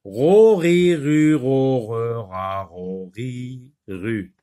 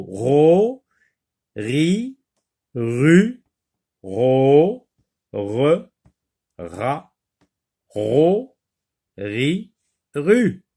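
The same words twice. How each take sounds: First: Syllables run together in one quick chain; quick drill that falls away in pitch and volume; very fast reading. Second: Each syllable on its own with a pause after it; slow drill, one rising syllable at a time; syllable-by-syllable reading. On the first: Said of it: "On recommence très vite". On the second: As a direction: read each syllable separately, like a teacher leading repetition. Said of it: "lis les syllabes". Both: Shown as a demonstration.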